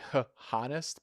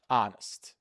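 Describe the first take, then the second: First: The word starts with an h sound. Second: The word starts without an h sound. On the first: The speaker calls it wrong. "Many people like to say h honest, but the H is silent" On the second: The speaker calls it right. "Yes, honest"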